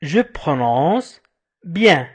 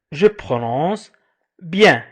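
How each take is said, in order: Both takes have the same delivery.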